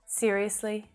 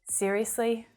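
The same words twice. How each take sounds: The two takes are said the same way.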